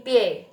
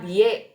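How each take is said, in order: First: "pie" with b turned to unvoiced p; "pie" as Mandarin bie, starting on p; correct Mandarin reading. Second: "bie" with a voiced b; wrong reading. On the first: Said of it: "B-nya jadi P". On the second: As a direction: say "bie" as spelt, b-yé. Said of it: "bukan dibacanya bie tapi pie". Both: Shown as a demonstration.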